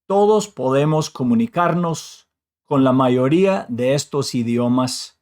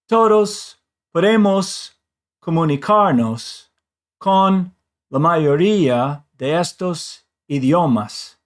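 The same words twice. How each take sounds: First: Even Spanish rhythm with no stretched syllables. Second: English-like rhythm with stressed syllables stretched out. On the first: The speaker calls it right. "the way I would say it in Spanish" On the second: The speaker calls it wrong. "you could hear how the words get stretched out more"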